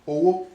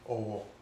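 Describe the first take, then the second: First: It carries the tone pattern meaning money. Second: It carries the tone pattern meaning respect. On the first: It means money. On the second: It means respect.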